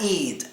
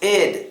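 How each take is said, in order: First: The ending sounds like 'eid'. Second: The ending sounds like 'id'. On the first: The speaker calls it wrong. "not eid" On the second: The speaker calls it right. "Now it's id"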